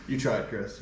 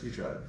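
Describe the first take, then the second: First: Said in the usual way. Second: A quieter mock pat on the back; soft mock consolation. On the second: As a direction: repeat it softer, trailing off. Teasing repeat, much softer.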